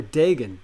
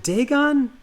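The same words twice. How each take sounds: First: "Dagon" with long A and weak ending; second syllable of "Dagon" reduced to gun; Dagon as DAY-gun. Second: "Dagon" with long A and full -on; second syllable of "Dagon" rhymes with on; Dagon as DAY-gon. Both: Shown as a demonstration. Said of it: "Is it Dagon or Dagon?".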